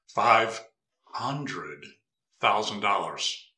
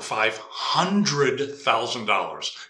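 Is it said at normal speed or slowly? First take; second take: slowly; normal speed. First: It is said slowly. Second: It is said at normal speed.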